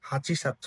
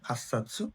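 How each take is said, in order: First: The 'chi' is said fully before 'satsu'. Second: The 'chi' merges into a doubled 's' sound. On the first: The speaker calls it wrong. "হাচি সাতসু না হয়ে" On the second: The speaker calls it right.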